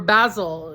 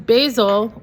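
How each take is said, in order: First: It is said with a British pronunciation. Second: It is said with a non-British pronunciation.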